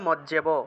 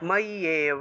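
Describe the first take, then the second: First: The middle consonant is a doubled 'j' sound. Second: The middle consonant is a doubled 'y' sound. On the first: This is how Bengali speakers say it. "বাংলায় বললে মজ্জেব" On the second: This is the Sanskrit pronunciation. "সংস্কৃত উচ্চারণ করলে ময়্যেব"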